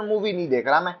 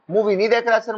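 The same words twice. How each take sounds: First: Said in the usual way. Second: Raised, higher voice so the whole house hears movie नहीं देख रहा; loud for family to hear. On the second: Pretend. Student saying it loudly so his family knows he studies. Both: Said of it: "घर वाले को पता होना चाहिए".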